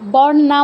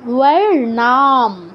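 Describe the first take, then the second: First: The word begins with a 'b' sound. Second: The word begins with a 'w' sound. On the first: The speaker calls it wrong. "বর নাম বলবেন না" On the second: The speaker calls it right.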